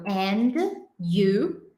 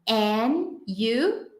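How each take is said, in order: First: The words are said separately with a pause. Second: The words run together without the d sound. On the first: "se falasse pausado" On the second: "Isso acaba virando um"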